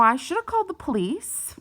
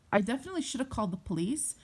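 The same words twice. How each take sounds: First: "called the police" pitched high and loud, rising at the end; loud, high-pitched self-reproach; emphatic regret. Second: Said in the usual way. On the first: Real, not acted. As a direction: exclaim it, voice climbing on "police". Regretful exclamation, then repeated more calmly.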